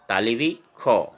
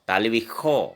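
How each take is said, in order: First: The consonant is said as a kh sound. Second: The same.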